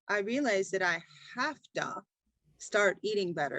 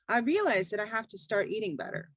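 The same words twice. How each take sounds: First: Words are separated and each is emphasized. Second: Words run together in one fluid flow. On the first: The speaker calls it wrong. "we don't say" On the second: The speaker calls it right. "We say it all at once in a clear, fluid way"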